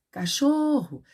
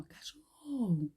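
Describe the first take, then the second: First: High-pitched call, stressed syllable held; calling out loud. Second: Soft, slow, drawn-out word; just pronouncing it quietly. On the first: Teacher showing pupils how it works, calling out loud. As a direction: call the word out as if summoning the dog. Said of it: "A tia tá falando em voz alta". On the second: Teacher showing pupils they needn't shout, pronouncing quietly. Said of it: "Só pronunciando". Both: Shown as a demonstration.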